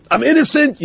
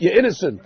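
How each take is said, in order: First: Hoog en opgetogen, a congregant glad to be let off; relieved delight. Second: Said in the usual way. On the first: Acted. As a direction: sing it out with relief at being off the hook.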